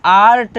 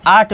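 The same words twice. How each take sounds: First: आर्ट drawn out with the R sounded; R pronounced. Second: आर्ट said as "aat", no R; silent R. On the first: Teacher shows students the version not used, R sounded in आर्ट. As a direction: say आर्ट slowly, voicing the R before the T. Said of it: "हम आर्ट नहीं बोल रहे हैं". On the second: Teacher shows students the version used, R left silent in आर्ट. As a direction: drop the R in आर्ट, long open A straight into T. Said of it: "सिर्फ आर्ट बोल रहे हैं". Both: Shown as a demonstration.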